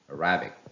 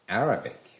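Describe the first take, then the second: First: The stress is on the second syllable. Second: The stress is on the first syllable. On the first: The speaker calls it wrong. "the wrong pronunciation with the stress on the second syllable" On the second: The speaker calls it right. "the correct pronunciation is Arabic"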